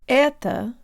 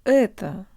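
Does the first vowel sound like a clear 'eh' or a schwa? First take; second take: eh; schwa. First: The first vowel is a clear, high eh sound. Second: The first vowel has a darker, schwa-like sound. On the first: The speaker calls it wrong. "Not это with a high tongue" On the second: The speaker calls it right. "try giving it a schwa flavor"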